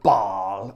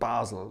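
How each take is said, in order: First: The name is pronounced in the French way. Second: The name is pronounced in the German way. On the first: This is how many English people say it. "like a lot of English people call it, the French way of saying it" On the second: This is how the man in the story said it. "the German way of saying it"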